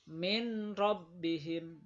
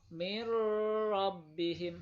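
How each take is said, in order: First: The n is pronounced clearly before r. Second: The n merges into the following r. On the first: The speaker calls it wrong. "Nggak boleh" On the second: The speaker calls it right. "harus masuk"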